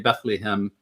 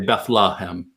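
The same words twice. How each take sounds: First: It is said the British way. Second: It is said the American way.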